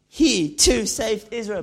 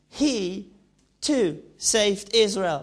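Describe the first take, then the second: First: It is spoken in a London street-slang accent. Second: It is spoken with an Italian accent. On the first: "the new Ali G version" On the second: "the Italian version says"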